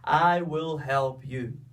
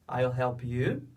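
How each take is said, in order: First: I and will are said as separate words. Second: I will is contracted into one syllable. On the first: "do que eu fazer uma pausa" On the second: "Nós fazemos na fala"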